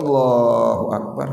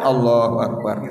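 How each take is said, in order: First: It is said solemnly and devoutly. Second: It is said carelessly, without devotion.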